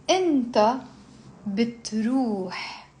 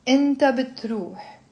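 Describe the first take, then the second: First: Pronoun, pause, then stretched verb; slow conjugation drill. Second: Pronoun and verb run together; faster drill. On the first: Teacher leading students through a verb, slowly. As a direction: draw out each word for repeating. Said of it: "you slowly build up". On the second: Teacher drilling without explanation, quicker pace. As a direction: say it briskly in one go. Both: Shown as a demonstration.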